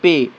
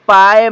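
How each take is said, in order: First: The vowel sounds like 'ay' in 'day'. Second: The vowel sounds like 'eye' in 'pie'. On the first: The speaker calls it right. "तो इसका भी उच्चारण बनेगा पे" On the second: The speaker calls it wrong. "अगर हम पढ़ते तो ... हम गलती कर देंगे"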